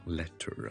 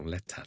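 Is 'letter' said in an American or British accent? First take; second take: American; British. First: The word is said in an American accent. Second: The word is said in a British accent. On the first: "就会读letter" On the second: "美国人就唔会讲letter"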